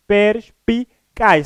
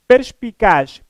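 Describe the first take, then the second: First: "perspicaz" very slowly, per-spi-caz with pauses; split into syllables. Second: Said in the usual way. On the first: Shown as a demonstration. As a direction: break "perspicaz" into its three syllables for the students. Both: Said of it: "são três sílabas".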